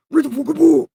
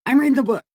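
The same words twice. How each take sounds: First: High, loud alter-ego outburst; unhinged high-pitched command; split-personality order. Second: Split personality arguing back. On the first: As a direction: shout it in a warped other voice. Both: Acted. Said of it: "This seriously giving me split personalities".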